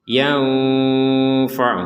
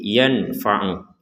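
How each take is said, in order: First: The n is between clear and nasal hum. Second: The n is pronounced clearly without nasal hum. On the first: "di tengah-tengah antara jelas dan dengung" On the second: "Kalau dibaca jelas"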